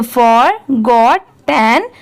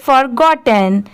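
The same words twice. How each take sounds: First: Forgotten very slowly in three separate parts; teacher joining the pieces of forgotten, unhurried. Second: Forgotten quickly as one joined word; brisk, fluent reading of forgotten; said at speed. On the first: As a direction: sound out for, got, ten with clear gaps between. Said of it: "इन तीनों को साथ में मिला देंगे". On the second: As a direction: run for-got-ten together without gaps. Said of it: "अब इसे speed में पढ़ेंगे". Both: Shown as a demonstration.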